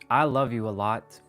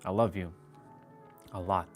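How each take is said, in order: First: It sounds open and heartfelt. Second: It sounds guarded and held back. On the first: The feeling is shown openly. The speaker calls it right. "The second one does not" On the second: The feeling is hidden. The speaker calls it wrong. "The first one has a mask"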